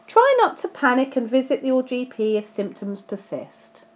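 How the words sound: It runs straight on after 'panic'. Avoid both panicking and visiting your GP. The speaker calls it wrong. "that sounds quite contradictory, doesn't it?"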